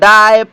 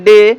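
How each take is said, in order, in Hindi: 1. इसका स्वर 'die' जैसा है। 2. इसका स्वर सादा 'ay' ध्वनि है। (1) "अगर हम पढ़ते तो डाय पाए माय लाय साय इस प्रकार से पढ़ते, ... हम गलती कर देंगे" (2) "ये हुआ इसका शुद्ध उच्चारण"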